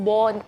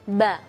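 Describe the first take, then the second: First: The sound is thick, with puffed cheeks. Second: The sound is thin and light. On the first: The speaker calls it wrong. "mulut kita diisi dengan angin bo bo, tidak" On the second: The speaker calls it right. "tapi ba"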